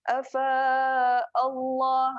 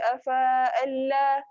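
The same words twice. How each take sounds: First: The L in Allah sounds thick and rounded. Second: The L in Allah sounds thin and light. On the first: The speaker calls it right. "lam dia tebal" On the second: The speaker calls it wrong. "Tu lam nipis"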